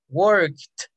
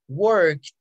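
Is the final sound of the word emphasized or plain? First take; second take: emphasized; plain. First: The ending sound is said with strong extra force. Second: The ending sound is said plainly, without extra force.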